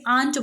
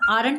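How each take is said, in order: First: The r sound is dropped, giving aant. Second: The r sound is clearly pronounced. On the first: The speaker calls it right. "आंट बोलेंगे" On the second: The speaker calls it wrong. "आरंट नहीं बोलेंगे"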